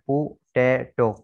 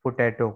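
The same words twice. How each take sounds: First: पोटैटो slowly broken into po, tay, to; slow teaching demo of पोटैटो, split in three; syllable-by-syllable pronunciation. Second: Said in the usual way. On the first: Shown as a demonstration. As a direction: sound out पोटैटो one syllable at a time. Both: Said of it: "इसको पोटैटो कहते हैं".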